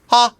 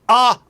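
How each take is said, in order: First: The vowel starts quickly without extra air. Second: The vowel starts with a hard glottal catch. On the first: The speaker calls it right. "without air on the H. Almost like a seal" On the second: The speaker calls it wrong. "I'm not going ah, ah, ah ... getting rid of the glottal plosive"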